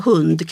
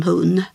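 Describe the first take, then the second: First: Said in the usual way. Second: Hun, final d dropped; hun without the d. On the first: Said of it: "kan uttalas som hun". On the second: Shown as a demonstration. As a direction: say hund as hun, ending on the n. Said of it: "där det liksom försvinner".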